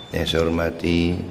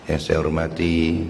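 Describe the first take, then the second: No difference in how they are said.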